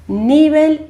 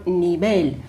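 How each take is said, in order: First: Nível as "NI-bel"; nível with an unstressed ending; stress on NI. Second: Nível as "ni-BEL"; nível with a strong final "BEL"; stress on last syllable. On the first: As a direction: punch the first syllable of nível. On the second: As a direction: push the stress to the end of nível. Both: Shown as a demonstration. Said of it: "qual é a sílaba tônica".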